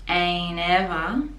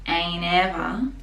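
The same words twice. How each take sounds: The two takes are said the same way.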